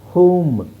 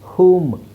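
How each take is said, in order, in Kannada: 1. ಸ್ವರ ಉದ್ದವಾದ 'oo' ಧ್ವನಿ. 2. ಸ್ವರ ಉದ್ದವಾದ 'oo' ಧ್ವನಿ.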